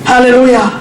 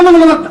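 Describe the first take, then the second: First: It is said slowly and clearly. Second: It is said quickly and indistinctly.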